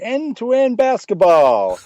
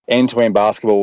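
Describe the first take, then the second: First: It is said in a put-on American accent. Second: It is said in a plain non-American accent.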